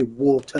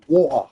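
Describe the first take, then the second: First: Mock the not-English "water"; "water" with a flapped t and r at the end; the wrong "water". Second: "water" drawn out slowly, crisp t, no r; slow English "water". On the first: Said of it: "We don't say water". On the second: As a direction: spell it out by ear, English style. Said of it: "We say water". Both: Shown as a demonstration.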